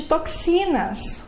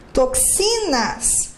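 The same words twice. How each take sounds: First: Said in the usual way. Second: "Toxinas" drawn out slowly, leaning on "xi"; slow teacher's breakdown of "Toxinas", stress on "xi"; stressed syllable shown. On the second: Shown as a demonstration. Repeats word to show stressed syllable.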